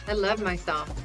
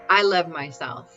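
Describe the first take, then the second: First: It is said plainly, in a matter-of-fact way. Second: It is said with lively, pumped-up energy. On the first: "Just very matter of fact" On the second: "Like when you're jamming, you're just like"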